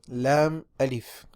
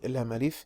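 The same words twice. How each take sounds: First: The two words are said slowly and separately. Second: The two words are run together quickly.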